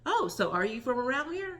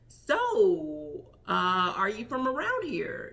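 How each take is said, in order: First: It is said smoothly without hesitant pauses. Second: It is said with awkward hesitant pauses.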